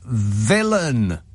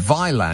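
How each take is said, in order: First: The name sounds like the word villain. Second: The name is pronounced the way it is spelled. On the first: The speaker calls it right. "But no, of course, it's Villain" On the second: The speaker calls it wrong. "I've been saying Vylan because that's what it looks like"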